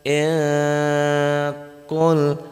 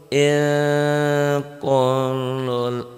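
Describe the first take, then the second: No difference in how they are said.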